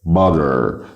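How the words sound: The final r sound is pronounced. "هنا عملنا صوت الار"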